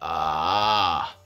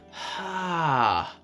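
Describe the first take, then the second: First: It starts with a creaky, crackling vocal fry. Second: It starts with a breathy puff of air. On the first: "a vocal fry onset" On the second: "an aspirate, which is an air-based one"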